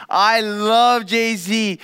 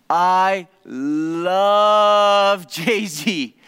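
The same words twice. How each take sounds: First: Slow, drawn-out "love", a bit quicker and lighter; lightly imitated fan delight; gushing love, again. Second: Slow, hugely drawn-out "love" in mock rapture; imitating a thrilled fan, each word dragged out; gushing love. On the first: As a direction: repeat it as a slower fan sigh. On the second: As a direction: stretch "love" out like a fan in bliss. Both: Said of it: "his conclusion at the end of that all was".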